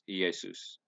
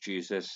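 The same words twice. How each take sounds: First: The name is pronounced the Greek way. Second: The name is pronounced the English way. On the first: "His name was Jesus in Greek" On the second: "In English"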